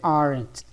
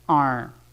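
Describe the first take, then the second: First: The final T sound is clearly pronounced. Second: The final T sound is swallowed and dropped. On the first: The speaker calls it wrong. "Não precisa dizer aren't" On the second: The speaker calls it right. "Esse T final nós engolimos"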